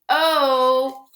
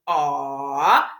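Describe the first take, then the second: First: The vowel says its name, as in 'oak'. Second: The vowel is the short sound, as in 'hot'. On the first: "Letter is long O" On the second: "Letter is short O"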